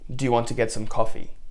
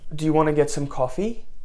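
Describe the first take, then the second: First: The pitch falls at the end. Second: The pitch rises at the end. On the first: The speaker sounds confident and grounded. The speaker calls it right. "a downward inflection" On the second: The speaker sounds needy and anxious. The speaker calls it wrong. "Notice how my inflection is going up"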